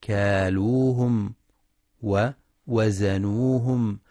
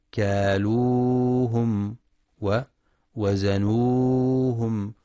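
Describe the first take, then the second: First: كالوهم ووزنوهم with the long a held just two beats; natural two-count length. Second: كالوهم ووزنوهم with the long vowels stretched far past two counts, slowly; wrong overlong madd. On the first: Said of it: "للمد الطبيعي". (مد طبيعي بمقدار حركتين) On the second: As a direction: drag the ا in كالوهم out too long, as the error. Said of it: "فلا يقرأ". (مد زائد عن الحركتين خطأ) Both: Shown as a demonstration.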